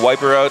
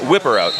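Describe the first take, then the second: First: The first word has a long 'eye' vowel. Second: The first word has a short 'ih' vowel. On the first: The speaker calls it wrong. "go ahead and smack me" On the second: The speaker calls it right. "You said it right that time"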